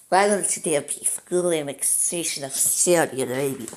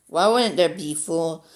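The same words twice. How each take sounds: First: Put-on Russian accent, slightly German. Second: Said in the usual way. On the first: Gamer justifying full annexation of Saudi Arabia, mock Russian accent. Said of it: "doing my Russian voice".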